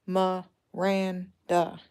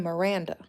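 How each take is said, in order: First: Miranda slowly split into its three syllables, mi-ran-da; syllables drawn out. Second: Said in the usual way. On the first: Shown as a demonstration. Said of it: "that's a three syllable". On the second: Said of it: "you know the name Miranda".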